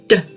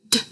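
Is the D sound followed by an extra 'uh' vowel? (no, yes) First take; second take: yes; no. First: The consonant has an added 'uh' vowel after it. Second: The consonant is short, with no added vowel. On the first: The speaker calls it wrong. "this is it how it shouldn't be pronounced" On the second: The speaker calls it right. "this is how it should be pronounced"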